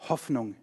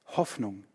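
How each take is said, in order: Both takes have the same delivery.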